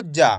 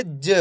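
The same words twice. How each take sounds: First: जा with a full open aa; full final vowel. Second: ज as a short juh, no aa; half-sounded letter. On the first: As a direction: say जा as a whole syllable, jaa. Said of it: "ऐसे नहीं पढ़ना आपको जा". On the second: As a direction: cut the vowel of ज down to a brief uh. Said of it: "कैसे पढ़ेंगे". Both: Shown as a demonstration.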